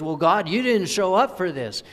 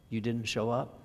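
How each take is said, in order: First: High, loud, indignant accusation; accusing God. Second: Said in the usual way. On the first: Retold or imitated. People blaming God, loud indignant "you didn't show up". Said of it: "what God gets accused of". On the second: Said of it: "It means".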